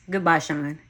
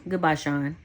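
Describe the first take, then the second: First: A touch firmer goodbye; mean it this time; mildly resolute farewell; with more conviction. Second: Said in the usual way. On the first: Acted. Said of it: "with much more conviction". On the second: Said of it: "so I just plainly stated".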